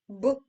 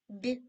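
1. Приголосний твердий, не пом'якшений. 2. Приголосний м'який, пом'якшений. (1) "Твердо" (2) "м'яко"

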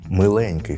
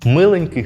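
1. Наголос на другому складі. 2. Наголос на першому складі. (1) "завжди наголошується частина «еньк», тобто «е»" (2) "Перший варіант"

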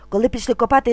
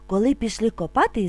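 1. Вимовляється дуже швидко. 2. Вимовляється трохи швидше. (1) "А тепер дуже швидко" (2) "А тепер трошки швидше"

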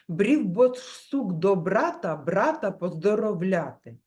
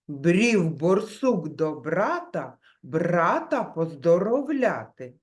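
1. Фраза вимовляється швидко. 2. Фраза вимовляється помірним темпом. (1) "І ще швидше" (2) "Тепер трішки швидше"

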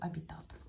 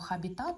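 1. Слово починається з голосного звуку. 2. Слово починається зі звуку h. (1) "ось ця літера не читається, тому правильно називати колоду «Абітат»" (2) "Ви могли почути назву «Хабітат», але це невірно"

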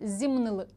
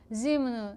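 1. Останній склад вимовляється чітко. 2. Останній склад проковтується і не чується. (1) "Обов'язково ми маємо з вами добре чути звук «ли» на кінці" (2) "отаке воно з'їдається"

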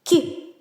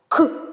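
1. Приголосний м'який, пом'якшений. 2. Приголосний твердий, без пом'якшення. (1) "а м'який" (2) "Твердий каже"

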